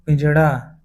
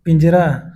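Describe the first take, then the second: First: पिंजड़ा with a retroflex flapped ṛ. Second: Said in the usual way. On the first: Shown as a demonstration. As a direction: say पिंजड़ा as pinjaṛaa. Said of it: "अशुद्ध है". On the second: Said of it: "शुद्ध है".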